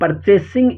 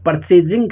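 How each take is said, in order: First: The consonant before -ing is an s sound. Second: The consonant before -ing is a z sound. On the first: The speaker calls it right. "लेकिन परचेसिंग इसका उच्चारण है" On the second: The speaker calls it wrong. "इसका उच्चारण कुछ लोग परचेजिंग करते हैं"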